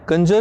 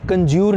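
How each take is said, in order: First: The word ends in a short 'jer' sound. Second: The word ends in a long 'joor' sound. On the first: The speaker calls it right. "इसकी pronunciation कंजर होती है" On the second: The speaker calls it wrong. "कंज्यूर नहीं"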